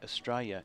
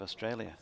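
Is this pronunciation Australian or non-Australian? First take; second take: Australian; non-Australian. First: It is said the way Australians say it. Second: It is said the way non-Australians say it. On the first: "why do Australian people say Australia" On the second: "instead of Australia"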